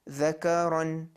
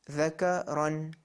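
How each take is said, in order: No difference in how they are said.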